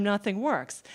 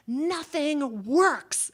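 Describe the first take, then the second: First: Said in the usual way. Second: Drawn-out, higher-pitched mock yell; imitated yell. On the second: Father's life-lesson to audiences, imitated long yell. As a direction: stretch both words out in a big imitated holler. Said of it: "and he yells it".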